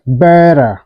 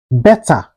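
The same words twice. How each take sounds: First: BETTER with a quick D-like tap, "bedder"; flapped T. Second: BETTER with a clear hard T; T fully pronounced. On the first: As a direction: say "better" American style, like "bedder". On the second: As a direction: say "better" with a crisp T, no flap. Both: Shown as a demonstration. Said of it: "it's pronounced like".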